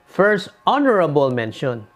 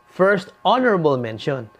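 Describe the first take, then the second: No difference in how they are said.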